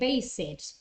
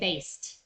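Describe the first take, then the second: First: The ending adds an extra 'id' syllable. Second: The ending adds no extra syllable. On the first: The speaker calls it wrong. "you might say" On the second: The speaker calls it right. "in fact you have to say"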